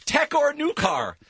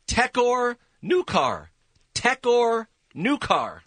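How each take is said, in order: First: Reversed words, said deliberately; backwards speech. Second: Slow, spaced-out reversed words; slow backwards speech. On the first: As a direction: read the title backwards. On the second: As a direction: drag the backwards title out slowly. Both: Shown as a demonstration. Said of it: "I love this one backwards".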